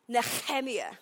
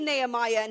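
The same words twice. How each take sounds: First: The name has a Hebrew-style pronunciation. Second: The name has a familiar English pronunciation. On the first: The speaker calls it right. "You say it Nehemiah" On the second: The speaker calls it wrong. "you don't say Nehemiah"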